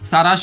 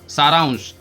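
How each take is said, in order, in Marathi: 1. या शब्दात 'sh' च्या आधी 'n' चा आवाज नाही. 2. या शब्दात 'sh' च्या आधी 'n' चा आवाज आहे. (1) "पण काही मुलं सारांश म्हणतात" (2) "टिंब वरती येतो तेव्हा त्याला न म्हणून वापरला जातो"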